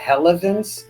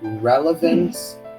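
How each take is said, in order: First: The first sound is a breathy H-like sound. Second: The first sound is an English R. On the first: The speaker calls it wrong. "You said relevance" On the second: The speaker calls it right. "the R sound in English is r r relevance"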